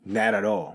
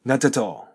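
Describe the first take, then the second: First: American pronunciation, like "nah-da-dall"; American English. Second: British "Not at all" with crisp real T's; British pronunciation, T's as written; British English. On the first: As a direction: link it loosely, American style. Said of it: "アメリカ英語は". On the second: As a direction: say both T's clearly, British style. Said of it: "イギリス英語だと". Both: Shown as a demonstration.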